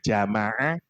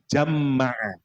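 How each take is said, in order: First: The middle m sound is short and single. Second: The middle m sound is doubled and held. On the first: "Wonten yang satu kiroat bacanya jamaah" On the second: "kiroat yang kedua dikasih tasdid"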